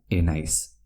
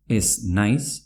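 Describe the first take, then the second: First: "enaiz" with no z before the n; Z dropped before N. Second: Said in the usual way. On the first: Shown as a demonstration. Teacher repeats the merged form, Z dropped. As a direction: run "enaiz" together as e-nais. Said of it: "se pronuncia". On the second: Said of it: "se pronuncia enaiz".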